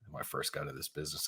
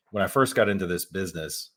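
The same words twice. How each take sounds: First: Sigh, then a hushed, hurried mumble; self-mocking mutter. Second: Said in the usual way. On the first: Real, not acted. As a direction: repeat it under your breath, mocking yourself. Repeats own phrase, calls it ridiculous.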